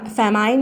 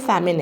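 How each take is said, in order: First: The second syllable sounds like 'mine'. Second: The second syllable sounds like 'min'. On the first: The speaker calls it wrong. "फैमाइन नहीं है" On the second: The speaker calls it right. "यह फैमिन है"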